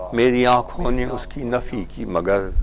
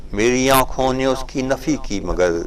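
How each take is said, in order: The two takes are said the same way.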